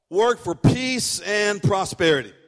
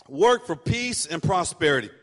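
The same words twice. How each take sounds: First: Slow, weighty statement of point three; slow emphatic point. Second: Said in the usual way. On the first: Shown as a demonstration. Pastor dictating point three to the church, slow and weighty. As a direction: set the words down slowly for note-taking. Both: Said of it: "And number three, write this down".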